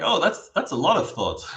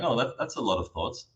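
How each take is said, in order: First: It is said with dramatic, judging surprise. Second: It is said in a calm, neutral tone.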